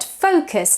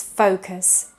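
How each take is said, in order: First: "focus" as "fock-yooz"; learner's "focus" with short first vowel; mispronounced focus. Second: "focus" as "FOH-kuhs"; English "focus" with first vowel of go; correct long O. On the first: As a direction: give "focus" a short o and a yoo. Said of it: "tends to be pronounced focus". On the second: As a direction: give "focus" a long o and weak ending. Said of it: "but it's focus". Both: Shown as a demonstration.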